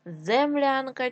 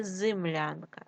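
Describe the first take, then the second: First: Said in the usual way. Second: Зимлянка with и instead of е; wrong variant зимлянка, first vowel и; и in first syllable. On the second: Shown as a demonstration. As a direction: say зимлянка with short i after З.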